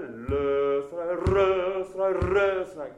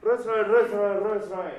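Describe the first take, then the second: First: ルースライ pushed forward, each one punched; ルースライ hit hard and driving ahead. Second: ルースライ said three times, each louder, building fast; ルースライ, ルースライ, ルースライ growing in a steep climb; steep crescendo. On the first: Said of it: "こう結構突っ込むような感じで". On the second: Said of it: "結構クレッシェンドは急な上り坂で". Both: Shown as a demonstration.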